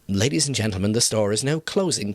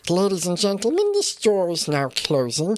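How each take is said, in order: First: It is said in his normal voice. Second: It is said in a Gollum voice.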